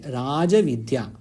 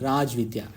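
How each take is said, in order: First: The final vowel of the first word is pronounced. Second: The final vowel of the first word is dropped. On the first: The speaker calls it right. "That is the correct prayoga" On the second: The speaker calls it wrong. "because we are used to reading Hindi like that"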